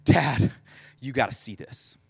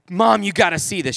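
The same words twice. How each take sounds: First: Mock-winded kid, low and softening; acted breathless report; out of breath. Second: Said in the usual way. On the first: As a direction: gasp it out in pieces, imitating a breathless boy. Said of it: "they're, like, out of breath". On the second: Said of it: "comes inside and says to my mom".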